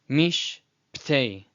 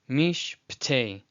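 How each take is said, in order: The two takes are said the same way.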